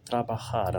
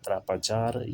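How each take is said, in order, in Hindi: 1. बीच का व्यंजन गले वाली kh की आवाज़ है। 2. बीच का व्यंजन j की आवाज़ है। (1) "बल्कि त्राबहार हम इसे प्रोनाउंस करेंगे" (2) "त्रापाजार या कोई और लफ्ज़ नहीं"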